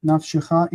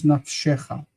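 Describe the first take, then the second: First: Nafshecha stressed as naf-she-CHA; stress on final CHA. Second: Nafshecha stressed as naf-SHE-cha. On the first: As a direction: put the weight of "nafshecha" on the last syllable. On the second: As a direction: shift the weight of "nafshecha" to the middle syllable. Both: Shown as a demonstration. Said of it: "shifts and it becomes nafshecha".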